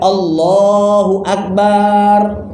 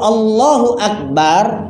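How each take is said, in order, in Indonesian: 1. Vokal dalam 'bar' dipanjangkan. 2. Vokal dalam 'bar' pendek dan tegas. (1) "kalau kita panjangkan" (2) "tegas pendek"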